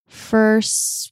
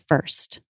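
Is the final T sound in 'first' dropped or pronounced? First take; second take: dropped; pronounced. First: The final T sound is dropped. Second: The final T sound is pronounced. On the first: "There, I'm dropping the T" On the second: "If I was going to say first by itself, I would say first"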